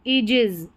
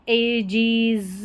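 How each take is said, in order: First: The first vowel is a long 'ee' sound. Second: The first vowel is a short 'eh' sound. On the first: The speaker calls it right. "ईजिज ऐसे पढ़ देना इसको" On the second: The speaker calls it wrong. "नहीं तो हम पढ़ेंगे इसको एजीज"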